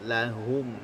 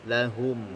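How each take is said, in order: The two takes are said the same way.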